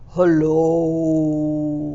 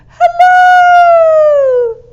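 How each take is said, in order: First: It is said in a low voice. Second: It is said in a high voice.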